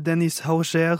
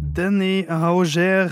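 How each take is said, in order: First: The name is pronounced the French way. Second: The name is pronounced the Norwegian way.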